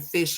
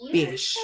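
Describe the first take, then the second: First: The word begins with an F sound. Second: The word begins with a B sound. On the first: The speaker calls it right. "Instead of saying fish" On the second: The speaker calls it wrong. "he's saying bish"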